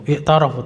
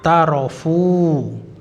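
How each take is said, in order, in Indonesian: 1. Kata i'tarafu dimulai dengan bunyi vokal pembukanya. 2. Vokal pembukanya dihilangkan, disambung dengan kata sebelumnya. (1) "Ini harusnya i'tarafu" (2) "tapi kalau dibaca disambung maka menjadi apa itu?"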